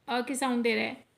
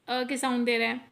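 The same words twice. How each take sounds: The two takes are said the same way.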